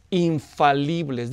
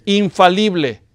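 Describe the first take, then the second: First: "infalibles" stretched very slow, every syllable weighed; slow emphatic "infalibles" to repeat; drawn-out infalibles. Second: "Infalible" called out louder, crisp with a falling close; preacher leads the congregation, calling the word out loudly; loud model word. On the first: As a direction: lay out "infalibles" slowly and deliberately for the congregation. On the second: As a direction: belt out "Infalible" as a call for the congregation to echo. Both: Shown as a demonstration. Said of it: "Diga infalible".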